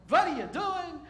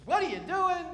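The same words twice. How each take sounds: First: High, loud retake; a hint of Moses' accent, punched on what; Moses with that accent. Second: Loud, high mock outburst; a lightly voiced Moses, accented. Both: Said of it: "Probably with that accent".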